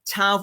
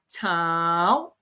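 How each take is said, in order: First: The syllable is said on a level mid tone. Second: The syllable is said with a rising tone. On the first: It is the word for a group of people. "ชาว for the mid tone" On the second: It means morning. "เช้า rising tone"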